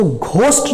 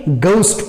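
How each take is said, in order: First: "घोस्ट" with a breath-puffed Hindi gh; wrong pronunciation. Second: "घोस्ट" begun with a plain g, as "goust"; correct pronunciation. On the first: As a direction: aspirate the first sound of "घोस्ट". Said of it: "इसको घोस्ट नहीं पढ़ेंगे". (गलत, महाप्राण "घ" वाला "घोस्ट") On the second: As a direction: drop the puff of air in "घोस्ट". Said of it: "घ के बदले ग पढ़ेंगे". ("घोस्ट" को "गोस्ट" जैसा) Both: Shown as a demonstration.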